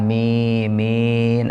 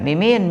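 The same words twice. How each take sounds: First: Both vowels are drawn out long. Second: Both vowels are kept short.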